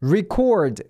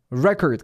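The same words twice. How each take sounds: First: Record said ri-KORD, stress on the second syllable; verb pronunciation. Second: Record said REK-erd, stress on the first syllable; noun pronunciation. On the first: Teacher showing viewers the verb, ri-KORD stressed late. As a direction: say record as the verb, light ri and a strong CORD. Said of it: "스펠링은 똑같은데 발음이 달라져요". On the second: Teacher showing viewers the noun, REK-erd stressed early. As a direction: say record as the noun, punch the RE and swallow the end. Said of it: "강세도 앞에 있어요". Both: Shown as a demonstration.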